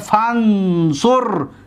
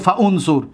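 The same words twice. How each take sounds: First: Fa links directly to the following consonant. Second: The initial vowel is sounded separately after fa. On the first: The speaker calls it right. "میگیم فانصر" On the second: The speaker calls it wrong. "نمیگیم فانصر"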